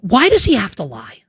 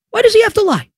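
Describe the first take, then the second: First: Said in the usual way. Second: Exasperated squeal of a question; high-pitched incredulity. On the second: Real, not acted. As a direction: pitch leaps way up in disbelief. Incredulous repeat, escalating over the lie.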